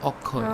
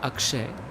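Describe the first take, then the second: First: The cluster is simplified to a single 'kh' sound. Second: The full 'ksh' consonant cluster is pronounced. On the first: "he says Akhoy" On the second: "instead of saying Akshay"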